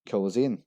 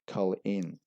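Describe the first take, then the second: First: The name is read out letter by letter. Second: The name is said in its local form. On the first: The speaker calls it wrong. "we have Culzane" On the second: The speaker calls it right. "This is actually pronounced as Culane"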